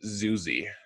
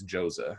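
First: The name ends with an 'ee' sound. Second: The name ends with an 'uh' sound. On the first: This is how the speaker would guess it from spelling. "I would pronounce it Zuzi" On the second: This is how the name's owner says it. "he says it's Jouza"

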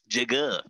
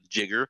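First: The word ends with an 'ah' sound. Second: The word ends with an 'er' sound. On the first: The speaker calls it right. "you drop off the ER, you replace it with the A" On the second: The speaker calls it wrong. "It's not jigger"

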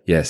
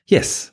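First: The yes is said in an ordinary casual tone. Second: The yes is said in a distinct deliberate tone. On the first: It is an everyday yes. "it's not just a yes" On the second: It is a conditioned signal to the dog. "That's the training tone"

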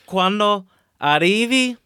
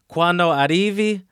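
First: The phrase is spoken at a slow pace. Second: The phrase is spoken at a fast pace. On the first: "Let me say it one more time slowly" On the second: "Like I said it fast the first time"

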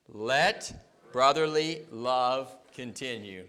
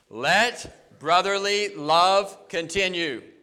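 First: It is read at normal, softer volume. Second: It is read louder.

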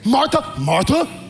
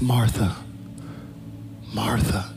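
First: It is said in a scolding, harsh tone. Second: It is said in a tender, caring tone.

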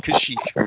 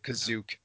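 First: The name has a 'sh' sound in the middle. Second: The name has a 'z' sound in the middle. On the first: The speaker calls it right. "It's supposed to be Kashyyyk" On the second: The speaker calls it wrong. "someone in the holiday special pronounces it Kazook"

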